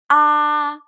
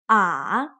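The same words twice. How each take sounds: First: The pitch stays high and level. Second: The pitch dips down, then rises again. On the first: "The first tone, ah, high and flat" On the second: "The third tone, ah, it goes down and then up again"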